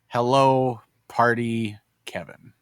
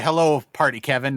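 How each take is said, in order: First: The greeting is said hesitantly, trailing off. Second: The greeting is said with confident enthusiasm. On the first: The speaker is unsure about greeting the other. The speaker calls it wrong. "you sounded hesitant" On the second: The speaker is glad to greet the other. The speaker calls it right. "you would have said"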